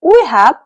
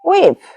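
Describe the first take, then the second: First: Both words are said fully and separately. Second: The two words merge into one short syllable.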